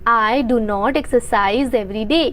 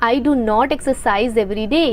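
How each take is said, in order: The two takes are said the same way.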